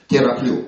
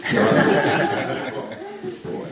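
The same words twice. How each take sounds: First: Said in the usual way. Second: Slow, whispered тераплю through a laugh. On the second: Shown as a demonstration. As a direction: breathe out тераплю slowly, laughing. (медленно, шёпотом, со смехом)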